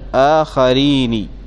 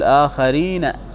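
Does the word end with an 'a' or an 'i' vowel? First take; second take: i; a. First: The final nun ends with an i vowel. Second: The final nun ends with an a vowel. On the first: This follows a rare dialect usage. "الشاهد آخرين، ... لكن هنا على هذه اللغة القليلة" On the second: This is the expected standard form. "المفروض يقول آخرين"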